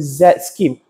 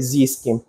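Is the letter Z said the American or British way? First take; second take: British; American. First: The letter Z is said the British way. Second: The letter Z is said the American way. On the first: "we call it the Z scheme" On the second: "if you are American, you call it Z scheme"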